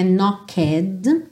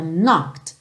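First: "knocked" with the E said aloud; E pronunciado, errado; wrong extra vowel. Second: "knocked" as one syllable ending in T; silent E. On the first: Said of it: "Não é knocked". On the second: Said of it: "esse E ... não vai ser pronunciado". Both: Shown as a demonstration.

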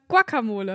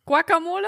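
First: Guacamole said without the U, kaka-mole; right Guacamole. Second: Guacamole with a kw sound, quacking; wrong Guacamole. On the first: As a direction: say Guacamole starting ka-. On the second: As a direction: say Guacamole starting kwa-. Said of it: "es heißt nicht". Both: Shown as a demonstration.

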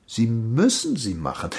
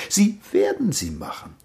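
First: MÜSSEN leaned on at usual pitch; insist, weighting the word "müssen"; stress on müssen. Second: WERDEN lifted high, then falling; stress on werden. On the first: Master insists, shifting the stressed verb. (Betonung auf „müssen“, nachdrücklich) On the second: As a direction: foretell it, punching "werden" up in pitch. Master predicts, shifting the stressed verb. (Betonung auf „werden“, hoch angesetzt) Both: Acted.

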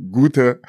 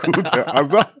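First: Gute pushed higher and louder; stress on gute. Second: Gute Asa said through a laugh, higher. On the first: Retold or imitated. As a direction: lean hard into gute. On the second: Real, not acted.

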